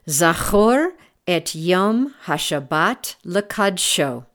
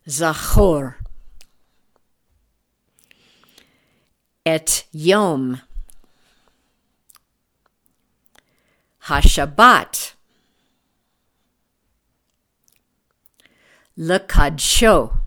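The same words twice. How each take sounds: First: It is read at normal speed. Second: It is read slowly and deliberately.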